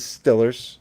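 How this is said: The first vowel is a short 'i' sound.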